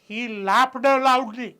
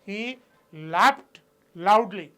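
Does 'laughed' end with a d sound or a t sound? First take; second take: d sound; t sound. First: Laughed ends with a d sound. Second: Laughed ends with a t sound. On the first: The speaker calls it wrong. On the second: The speaker calls it right.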